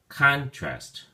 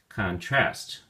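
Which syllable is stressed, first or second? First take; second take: first; second. First: The stress is on the first syllable. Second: The stress is on the second syllable. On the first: It is used as a noun. "When you use it as a noun, the emphasis or stress is on the first syllable" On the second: It is used as a verb. "If you use it as a verb, then the emphasis or stress is on the second syllable"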